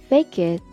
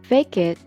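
Both takes have the same delivery.

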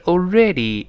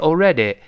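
First: The final vowel sounds like 'ee'. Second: The final vowel sounds like 'ay'. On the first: The speaker calls it right. "是already" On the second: The speaker calls it wrong. "最后那个Y 呢在末尾发E，不要发A，所以不是already"

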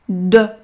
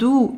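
First: The vowel is a close, rounded e. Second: The vowel sounds like a u. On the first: The speaker calls it right. "第二个小口的e" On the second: The speaker calls it wrong. "千万不能发成类似于u 的音，如果发成了shoes 或者是do"

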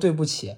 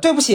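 First: It is said softer, with a lowered voice. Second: It is said reluctantly, grudging and unwilling.

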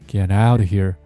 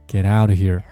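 First: The stress falls on the word out. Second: The stress falls on the word out.

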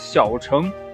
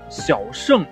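First: The second syllable is pronounced cheng. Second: The second syllable is pronounced sheng. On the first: "有的说呢是小乘和大乘" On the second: "有的说呢，这个应该读成小圣和大圣"

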